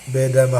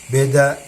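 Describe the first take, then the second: No difference in how they are said.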